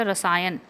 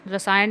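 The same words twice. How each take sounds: First: रसायन ending in dental n; correct pronunciation. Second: रसायन ending in retroflex ṇ; wrong pronunciation. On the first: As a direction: say रसायन as rasaayan, tongue at the teeth. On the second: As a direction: say रसायन as rasaayaṇ, tongue curled back. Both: Shown as a demonstration. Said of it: "रसायन नहीं होता".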